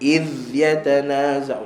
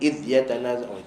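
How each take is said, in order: First: The z sound is softly drawn out and flowing. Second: The z sound is cut short and abrupt. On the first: The speaker calls it right. "rakhawah maksudnya bila kita sebut dia liritkan sikit bunyi dia" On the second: The speaker calls it wrong. "jangan ... itu tak ada rakhawah"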